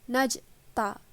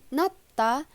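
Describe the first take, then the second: First: The syllable-final consonant sounds like j. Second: The syllable-final consonant sounds like t. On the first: The speaker calls it wrong. "dia bukan dibaca menjadi najta" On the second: The speaker calls it right. "akan dibaca berbunyi t"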